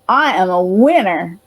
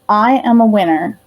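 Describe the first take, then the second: First: It is said forcefully, with strong conviction. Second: It is said mildly, with little force. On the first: The speaker calls it right. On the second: The speaker calls it wrong.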